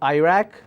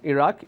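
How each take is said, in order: First: It is said with an American pronunciation. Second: It is said with a British pronunciation. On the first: "But Americans pronounce that as" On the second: "most of the countries, they follow British English. We pronounce the word as"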